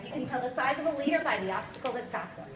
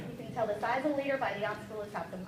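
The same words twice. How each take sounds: First: Said in the usual way. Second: Lower, softer, letting it sink in; softer repeat. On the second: Shown as a demonstration. Coach repeating the quote for the team, softer and lower. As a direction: say it again quietly so it lands. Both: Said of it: "Here's one of my favorite quotes".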